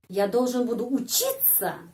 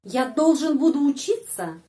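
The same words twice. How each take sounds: First: Должен carries the weight, said at normal volume; должен stressed, falling after it. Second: Буду pushed out loud and higher; буду stressed, the rest light. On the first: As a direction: lean on должен, keep буду light. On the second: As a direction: hit буду hard in Я должен буду учиться. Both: Shown as a demonstration. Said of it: "Ini bedanya".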